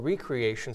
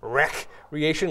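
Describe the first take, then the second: First: The first syllable sounds like 'ree'. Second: The first syllable sounds like 'wreck'. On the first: Something that restores and revitalizes. "something that revitalizes us" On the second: Something gets smashed and destroyed. "like a big ball going into a building and smashing it"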